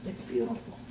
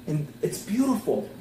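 First: Whispered. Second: Said in the usual way. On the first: Acted. Preacher repeating to the church, now in a whisper. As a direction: breathe it as a hushed whisper.

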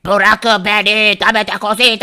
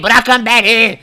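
First: Very slow, stretched alien voice; jailed alien pleading to be freed. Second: Said in the usual way. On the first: Acted. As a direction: drag out bırakın beni like a strange alien. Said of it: "yeşil uzaylının sesi bile değişmiş".

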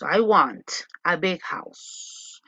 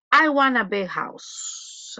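First: Slower, lower repeat. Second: Slow model reading. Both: Shown as a demonstration.

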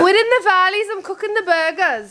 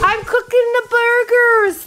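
First: Lilting Welsh valleys accent; Welsh accent attempt. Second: High, slow attempt at Welsh that lands in Somerset; botched Welsh accent, drifting into Somerset, drawn out; terrible Somerset-like accent. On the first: Tipsy vlogger practising for the camera, Welsh accent. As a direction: put on a sing-song Welsh valleys voice. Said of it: "why can't I do the Welsh accent". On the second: Vlogger announcing burgers, terrible Somerset-sounding accent. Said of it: "That was a terrible accent. That was like Somerset". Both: Shown as a demonstration.

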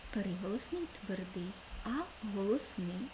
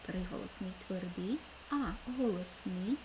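The two takes are said the same way.

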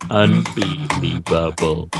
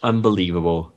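First: "Unbelievable" slowly, syllable by syllable; "Unbelievable" broken into slow, separate beats; drawn-out repeat. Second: Said in the usual way. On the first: Shown as a demonstration. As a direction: stretch out every syllable of "Unbelievable".

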